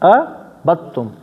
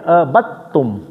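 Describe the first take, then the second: No difference in how they are said.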